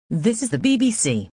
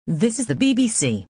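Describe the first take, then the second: No difference in how they are said.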